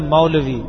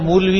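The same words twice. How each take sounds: First: The first vowel is an 'a' sound. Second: The first vowel is a 'u' sound. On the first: The speaker calls it right. "میم پہ زبر ہے پیش نہیں" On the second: The speaker calls it wrong. "اگر کوئی آدمی میم سے پڑھے گا تو مولوی ہوگا, غلط ہو جائے گا"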